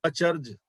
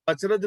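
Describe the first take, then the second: First: ਅਚਰਜ as a-charj, r and j joined; correct reading. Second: ਅਚਰਜ misread as ach-raj, vowel before the j; wrong reading. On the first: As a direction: say ਅਚਰਜ with no vowel between r and j. (ਅਚਰਜ ਨੂੰ "ਅ-ਚਰ੍ਜ" ਵਾਂਗ, ਰ ਤੇ ਜ ਜੋੜ ਕੇ ਪੜ੍ਹੋ) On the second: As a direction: break up the final r-j of ਅਚਰਜ with a short "a". (ਅਚਰਜ ਨੂੰ "ਅਚ-ਰਜ" ਵਾਂਗ ਗ਼ਲਤ ਪੜ੍ਹੋ) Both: Shown as a demonstration. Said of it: "ਅਚਰਜ ਨਹੀਂ ਪੜ੍ਹਨਾ".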